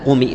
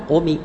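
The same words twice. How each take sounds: First: "قومي" with a stretched u, shown as wrong; wrong long vowel. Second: "قمي" with the kasra only hinted, a wrong rawm; whisper-thin i on "قمي", shown as the mistake; wrong rawm demo. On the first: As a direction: lengthen the u in "قومي" as the error. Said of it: "لا، لا تقول". ("قومي" بمد خاطئ للضمة) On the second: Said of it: "لا تقول". ("قمي" بروم خاطئ لكسرة عارضة) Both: Shown as a demonstration.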